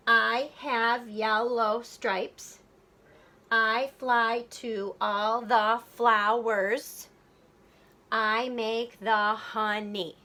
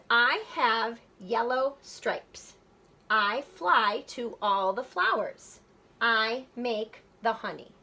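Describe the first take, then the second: First: Slow, every syllable set apart; counting out syllables. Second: Said in the usual way. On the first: Shown as a demonstration. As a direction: say it slowly, syllable by syllable. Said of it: "let's count our syllables". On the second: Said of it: "But let's count our syllables".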